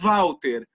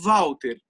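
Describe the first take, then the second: No difference in how they are said.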